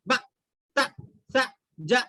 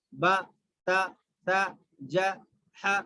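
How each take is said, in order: First: "با تا سا جا" chopped with an abrupt jolt on each; wrongly jerked syllables. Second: "با تا سا جا ہا" short and even, no jolt; brief vowels in "با تا سا جا ہا", released smoothly; short without jerk. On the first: Teacher showing what to avoid, jolted "با تا سا جا". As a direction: jerk each short syllable of "با تا سا جا". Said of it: "ایسا جھٹکا بھی نہیں دینا ہے". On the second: Teacher modelling correct reading, short unjerked "با تا سا جا ہا". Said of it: "صرف جلدی پڑھنا ہے". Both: Shown as a demonstration.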